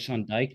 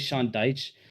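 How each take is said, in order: First: The surname ends with a k sound. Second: The surname ends with a ch sound. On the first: It sounds like an offensive word. The speaker calls it wrong. "that that sounds fucked" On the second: It is the real name. The speaker calls it right. "it's really Sean Dyche"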